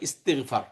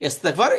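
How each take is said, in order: First: The vowel after 'ist' is an 'i' sound. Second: The vowel after 'ist' is an 'e' sound. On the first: "ওই উচ্চারণ আরবিতে এটা হয় ইস্তিগফার" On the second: "এ আর ই"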